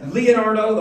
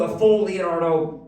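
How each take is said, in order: First: Leonardo said in full, formal and louder; proper full name. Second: Said in the usual way. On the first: Shown as a demonstration. Dad showing the daughter's formal address, louder. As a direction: announce Leonardo with a proper ring. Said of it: "more proper".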